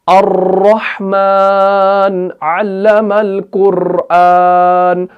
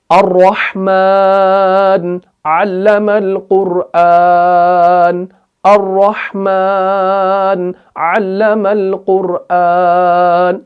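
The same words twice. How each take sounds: First: अर्रहमान with the र trilled and dragged out; slow chant with over-rolled र; rolled र recitation. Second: Sung, slow melodic tilawat of अर्रहमान अल्लमल कुरआन with single र; sung, recite slowly and evenly, the र said once; slow measured Quran chant; sung, simple Quran recitation. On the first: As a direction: drag the र into several taps. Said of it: "जब हम अगर इसमें ऐसे पढ़ेंगे". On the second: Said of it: "ये हम simple तरीके से पढ़ते हैं". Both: Shown as a demonstration.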